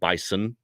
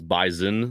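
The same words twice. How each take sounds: First: The middle consonant is a hissing s sound. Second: The middle consonant is a buzzing z sound. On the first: The speaker calls it wrong. "not Bison" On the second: The speaker calls it right. "like with a Z type of sound"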